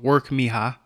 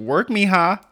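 First: It is said plainly, without attitude. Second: It is said with sassy attitude.

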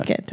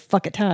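First: The name does not sound like 'fuck it'. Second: The name sounds like the phrase 'fuck it'. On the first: The speaker calls it right. "Phuket, right?" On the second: The speaker calls it wrong. "everybody calls it Fuck It Thai"

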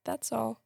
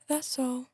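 First: It is read in a plain, neutral way. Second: It is spoken in a grand, pompous manner.

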